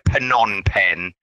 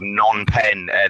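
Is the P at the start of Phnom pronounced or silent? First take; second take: pronounced; silent. First: The P at the start is pronounced. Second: The P at the start is silent. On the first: The speaker calls it wrong. "It's the wrong pronunciation" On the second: The speaker calls it right. "The P is like silent"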